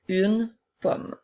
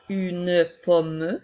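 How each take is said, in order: First: The final e is silent. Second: The final e is pronounced as a vowel. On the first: The speaker calls it right. "mais bien une pomme" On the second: The speaker calls it wrong. "les E à la fin des mots ne seront pas prononcés pour faire une pomme"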